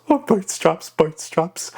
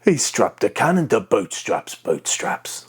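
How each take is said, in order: First: High, squawky pirate echo; Ragetti. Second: Throaty pirate character. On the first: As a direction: echo it high at the front of the mouth. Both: Shown as a demonstration. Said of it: "when you combine them both together".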